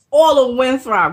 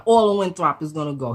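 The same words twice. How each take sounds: First: All of Winthrop called out loud and high; emphatic. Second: Said in the usual way. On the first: Retold or imitated. Stresses the threatened neighbourhood.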